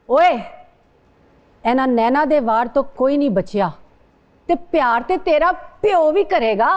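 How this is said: It is said in a very angry tone.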